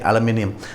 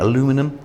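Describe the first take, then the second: First: It is said the British way. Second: It is said the American way. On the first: "we say aluminium" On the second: "I think you say that in American"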